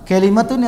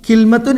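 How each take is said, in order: First: A vowel is heard between the L and M. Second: No vowel is heard between the L and M. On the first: "ഇങ്ങനെ രണ്ട് ഉച്ചാരണമുണ്ട്" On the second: "കിൽമത്തുൻ എന്നും പറയും"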